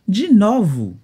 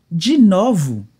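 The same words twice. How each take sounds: The two takes are said the same way.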